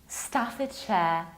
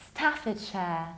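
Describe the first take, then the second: The two takes are said the same way.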